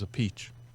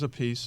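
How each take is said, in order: First: The name sounds like 'a peach'. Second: The name sounds like 'a piece'. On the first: This is the Italian way of saying the name. "He says a peach. That's the Italian way" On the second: This is how one brother says the name. "Carmine says a piece"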